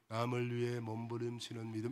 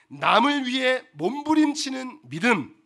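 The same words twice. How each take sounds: First: It is said weakly and softly. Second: It is said loudly and forcefully.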